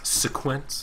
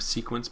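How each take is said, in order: First: The stress is on the second syllable. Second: The stress is on the first syllable. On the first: "The capital Q makes me want to say think it's different um, emphasis" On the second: "instead of"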